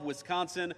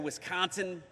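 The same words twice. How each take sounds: First: It is said in the speaker's usual accent. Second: It is said imitating the local Wisconsin accent.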